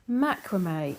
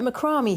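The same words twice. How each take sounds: First: It is said the American way. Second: It is said the British way.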